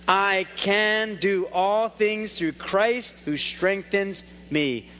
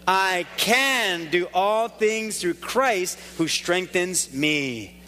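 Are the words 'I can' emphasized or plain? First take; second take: plain; emphasized. First: "I can" is said without special emphasis. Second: "I can" is said with strong emphasis.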